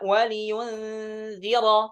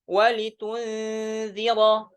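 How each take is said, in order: First: A y sound comes before the u. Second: A t sound comes before the u.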